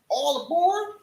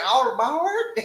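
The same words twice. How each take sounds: First: It is said in a Caucasian city accent. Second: It is said in a Caucasian country accent.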